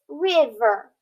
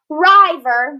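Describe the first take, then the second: First: The first vowel sounds short. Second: The first vowel sounds long. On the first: The speaker calls it right. "it's river" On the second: The speaker calls it wrong.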